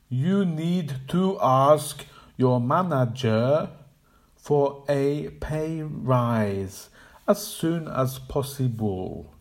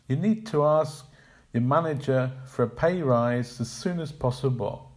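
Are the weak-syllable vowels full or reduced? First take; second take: full; reduced. First: Every vowel is fully sounded without stress rhythm. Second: Weak syllables are reduced to schwa with natural rhythm. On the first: The speaker calls it wrong. "sounding out every vowel sound on every syllable" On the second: The speaker calls it right. "the student should pronounce no fewer than 10 schwa sounds"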